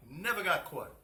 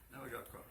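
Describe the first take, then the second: First: NEVER got caught, higher and much louder; loud exclamation. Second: Said in the usual way. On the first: Shown as a demonstration. Fabric seller to his class, gleeful loud exclamation.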